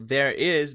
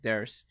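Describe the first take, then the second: First: Both words are said fully and separately. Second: The words are run together into one syllable.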